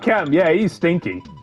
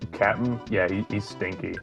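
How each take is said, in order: First: It is said in a fond, joking tone. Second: It is said in a catty, mean-spirited tone. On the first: The speaker is teasing him fondly. "the second one's like, oh, yeah, that bastard, yeah" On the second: The speaker is genuinely insulting him. "first one's like me trying to be like mean girl"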